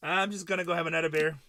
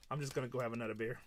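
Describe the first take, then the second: First: Louder, punched out as a proud exit; mock loud declaration. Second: Fast, softer mutter of giving up; imitating a quitter. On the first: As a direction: announce it to the room. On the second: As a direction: rattle it off quietly, defeated. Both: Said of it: "She's like".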